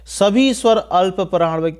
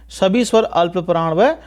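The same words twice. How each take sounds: The two takes are said the same way.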